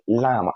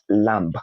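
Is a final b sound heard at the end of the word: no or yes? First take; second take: no; yes. First: The word ends without a b sound. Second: The word ends with a b sound. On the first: The speaker calls it right. "because the B is silent" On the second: The speaker calls it wrong. "not lamb"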